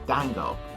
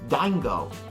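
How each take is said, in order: First: The name is said with a French pronunciation. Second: The name is said with an English pronunciation. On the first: "as the French pronounce it" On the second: "as as we pronounce it"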